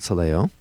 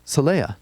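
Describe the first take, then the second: First: The name ends with an 'oh' sound. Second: The name ends with an 'ah' sound. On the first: The speaker calls it wrong. "not Soleo" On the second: The speaker calls it right.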